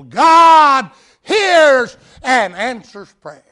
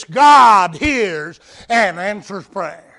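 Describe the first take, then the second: First: God hears and answers prayer, slow, higher and much louder, God punched; emphatic restatement. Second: GOD hit hard, slow and loud; stressed statement. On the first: Preacher underlining his point to the church, slow and booming. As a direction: thunder it out the second time. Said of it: "underlining that principle". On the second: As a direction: lean on God, measured and firm. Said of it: "I have no difficulty underlining that principle". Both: Shown as a demonstration.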